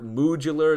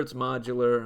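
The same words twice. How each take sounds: First: Modular said as moo-dular, like moo. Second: Said in the usual way. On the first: Shown as a demonstration.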